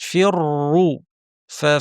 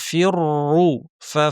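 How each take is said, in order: The two takes are said the same way.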